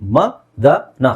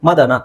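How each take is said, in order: First: It is said slowly, syllable by syllable. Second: It is said fast, as one word. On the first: "ನಾನು ನಿಧಾನಕ್ಕೆ ಹೇಳ್ತಾ ಇದ್ದೀನಿ" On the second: "fast ಆಗಿ ಹೇಳ್ತಿದ್ದೀನಿ"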